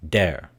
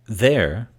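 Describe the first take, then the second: First: It begins with a hard 'd' sound. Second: It begins with a soft 'th' sound. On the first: The speaker calls it wrong. "they replace the th, the sound with a duh sound" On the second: The speaker calls it right. "th for duh"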